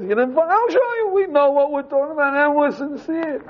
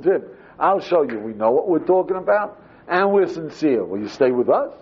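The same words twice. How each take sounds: First: High-pitched replay of the same plea; much higher replay. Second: Said in the usual way. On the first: Shown as a demonstration. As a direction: push it way up high, mock eager. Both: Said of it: "you say the whole thing is".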